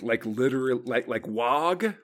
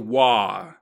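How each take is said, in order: First: The name ends with a hard G sound. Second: The name ends on an open vowel sound. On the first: "I've heard people pronounce the G" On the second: "I'm gonna say wah, like W H A"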